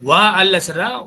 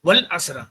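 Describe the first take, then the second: First: The 'a' of 'al' is pronounced as a separate syllable. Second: The 'a' of 'al' is dropped and linked to 'wa'.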